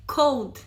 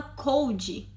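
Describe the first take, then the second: First: "cold" in one syllable, ending cleanly on the d; corrected cold. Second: "cold" with an added "ee" at the end, like "coldee"; mispronounced cold. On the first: Friend correcting the learner, "cold" ending on a plain d. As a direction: say "cold" with no vowel after the d. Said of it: "Não é cold, é cold". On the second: Friend imitating the learner's mistake, "cold" with an extra final vowel. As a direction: say "cold" in two syllables, Brazilian-style. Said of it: "porque você fala cold". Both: Retold or imitated.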